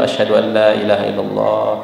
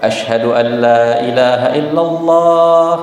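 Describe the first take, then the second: First: The phrase is said in a low, quiet voice. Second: The phrase is said in a loud, raised voice. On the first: Only the caller and those nearby hear it. "dia rendahkan dulu suaranya" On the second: It is proclaimed for everyone to hear. "Baru setelah itu dia keraskan"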